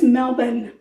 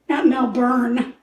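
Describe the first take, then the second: First: It follows the local way of saying it. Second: It follows a literal letter-by-letter reading. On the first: The speaker calls it right. "Melbourne is the way they pronounce it" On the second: The speaker calls it wrong. "I'm pronouncing it the way it's spelled"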